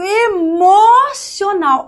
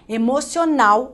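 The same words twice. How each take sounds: First: The stress falls on a syllable before the last. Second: The stress falls on the last syllable. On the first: "Eu destaquei uma sílaba que, a priori, não é a sílaba tônica" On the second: "é a pronúncia correta"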